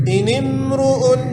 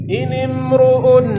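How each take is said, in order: The two takes are said the same way.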